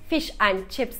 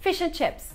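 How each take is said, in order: First: The word 'and' is pronounced fully and clearly. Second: The word 'and' is reduced to a short 'n'. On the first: The speaker calls it wrong. "Fish and chips değil" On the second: The speaker calls it right. "Oradaki and'i diye kısaltıyorlar"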